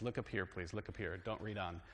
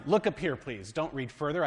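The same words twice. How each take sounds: First: Quieter, patient teacher telling the class to look up; "Look up here" said softly and firmly like a teacher with students. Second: Plain call. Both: Shown as a demonstration. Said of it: "Now I have to do like my students".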